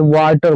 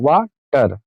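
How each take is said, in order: First: Said in the usual way. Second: "water" broken in two, वा, then टर; split into syllables. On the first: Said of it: "जैसे water बोलना है". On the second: Shown as a demonstration. Teacher modelling a two-syllable word, "water" split as वा - टर. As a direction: stop briefly between वा and टर in "water". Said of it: "क्या बोलते हैं?".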